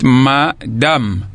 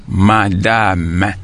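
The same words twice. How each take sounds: First: Madame in two beats, MA, DAM; badly separated syllables. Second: Madame as MA-DA-MÈ, slowly; three separated syllables. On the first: Teacher showing pupils a wrong split, two slow pieces. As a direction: say madame as ma-dam, final e silent. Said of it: "vous n'avez pas bien séparé". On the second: Teacher showing pupils the right split, every syllable drawn out. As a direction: say madame in three beats, final e sounded. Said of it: "nous avons trois syllabes dans le mot". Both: Shown as a demonstration.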